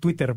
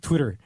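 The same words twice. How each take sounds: First: It is said the Mexican Spanish way. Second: It is said the American English way.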